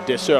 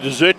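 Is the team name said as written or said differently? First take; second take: differently; as written. First: The name is pronounced differently from its written form. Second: The name is pronounced the way it is written. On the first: The speaker calls it right. "I'm sure is how you pronounce it" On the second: The speaker calls it wrong. "I always say dessert because that's how you spell it"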